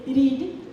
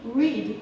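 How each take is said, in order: First: It is said with an Indian R. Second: It is said with an American R. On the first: "but they say read" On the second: "we say read"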